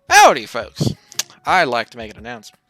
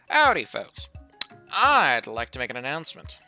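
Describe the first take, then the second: First: It is said in a plain voice. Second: It is said in a Southern accent.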